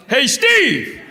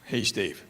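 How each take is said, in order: First: High holler across a movie theater; loud, high-pitched call; yelling out. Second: Said in the usual way. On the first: Retold or imitated. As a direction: yell it to get his attention. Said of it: "I just yell out".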